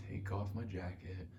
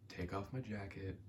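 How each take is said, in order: Both takes have the same delivery.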